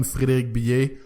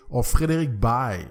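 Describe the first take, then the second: First: "Billet" said the French way, bee-AY; French pronunciation. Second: "Baille" said like the English word bye; English-friendly pronunciation. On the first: Host giving his own name the French way, "Billet" as bee-ay. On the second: Host giving his name for English speakers, "Baille" said like bye. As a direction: say "Baille" as a single syllable rhyming with bye. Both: Shown as a demonstration. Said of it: "writer for all you English speakers".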